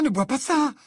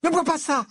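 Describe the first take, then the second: First: High, loud, alarmed plea; urgent cry, pitched way up. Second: High, loud, sudden outburst; sudden high-pitched cry of warning; abrupt warning. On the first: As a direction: repeat the warning with rising alarm. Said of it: "répéta Hermione alarmée". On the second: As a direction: cut in urgently to stop him. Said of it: "Hermione lança brusquement". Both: A narrator's reading.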